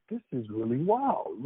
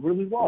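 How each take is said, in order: First: "This is really wild" drawn out slowly; slow, awed aside. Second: "really wild" punched out louder; louder repeat. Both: Retold or imitated. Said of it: "'cause I'm like".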